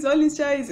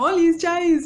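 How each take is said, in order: First: Said in the usual way. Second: Higher, louder greeting; bright greeting. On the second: Retold or imitated. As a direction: call it out like a cheerful hello. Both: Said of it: "Pero entonces era como".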